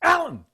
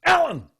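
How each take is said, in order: First: Piercing high yell of the name; master's sudden shout. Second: Sharp high shout of a name; master's sudden shout. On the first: Master shouts the official's name so he jumps. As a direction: bark the name to make him jump. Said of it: "He goes". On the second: Zen master startles the official with a sharp shout. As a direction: snap the name out to startle him. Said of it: "and then he goes". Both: Retold or imitated.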